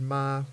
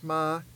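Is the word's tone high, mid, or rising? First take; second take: mid; high. First: The word is said on a level mid tone. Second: The word is said on a high tone. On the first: It means to come. "with the mid-tone means to come" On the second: It means horse. "with the high tone means horse"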